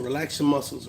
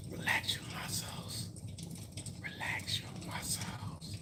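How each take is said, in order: First: Said in the usual way. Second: Mock soothing whisper, softer and slower; fading to a mock calming whisper. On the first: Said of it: "repeats the instruction, fading". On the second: Shown as a demonstration. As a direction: breathe the words out like a hammed-up meditation guide. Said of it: "repeats the instruction, fading to a whisper".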